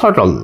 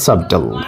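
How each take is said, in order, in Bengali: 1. b-এর শব্দ নীরব। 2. b-এর শব্দ উচ্চারিত হয়। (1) "এটা কি বলবো? সাটল" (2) "not সাবটল"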